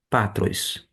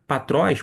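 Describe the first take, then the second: First: "patros" with stress moved onto PA; misplaced stress. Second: "patróis" stressed on TRÓIS; stress on second syllable. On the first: Teacher repeating the misreading, "patros" stressed on PA. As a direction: say "patros" as PA-trois, first syllable stressed. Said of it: "a pronúncia está errada?". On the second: Teacher giving the accented form, "patróis" stressed on the final syllable. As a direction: lean on the last syllable of "patróis". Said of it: "esse acento, tá indicando a sílaba tônica". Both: Shown as a demonstration.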